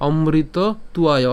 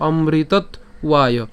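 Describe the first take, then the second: First: "অমৃত তুয়ায়" with t carried into "তুয়ায়"; "অমৃত" left open, then "তুয়ায়"; joined version. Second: "অমৃতত" closed on t, pause, then "ওয়ায়"; "ওয়ায়" detached, starting on a w sound; broken-up version. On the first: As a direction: slowly run the t onto the second part, "তুয়ায়". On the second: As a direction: split it after the t of "অমৃতত". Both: Shown as a demonstration. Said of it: "অথবা ভেঙে বললে".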